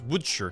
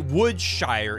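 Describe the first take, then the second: First: The name is said with sounds dropped. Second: The name is said with all its sounds. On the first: The speaker calls it right. "it's Woodshirt" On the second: The speaker calls it wrong. "you don't say Woodshire"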